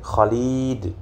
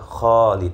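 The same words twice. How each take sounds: First: The first vowel is short. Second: The first vowel is long. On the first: The speaker calls it wrong. "karena kita terbiasa uh, dalam penggunaan uh, bahasa Indonesia, jadi kita sering Khalid" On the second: The speaker calls it right. "yang benar adalah Khalid. Yang panjang adalah bagian kha-nya"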